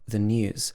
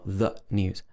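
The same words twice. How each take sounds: First: The two words run together smoothly. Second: The two words are said separately. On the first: The speaker calls it right. "the uh and the n connect together" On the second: The speaker calls it wrong. "not the news"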